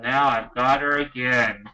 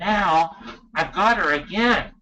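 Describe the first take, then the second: First: It sounds dismayed and reluctant. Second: It sounds delighted and grateful. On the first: Having the child again is a burden. The speaker calls it wrong. "instead of saying, ugh" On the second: Having the child again is a lucky chance. The speaker calls it right. "you need to be saying"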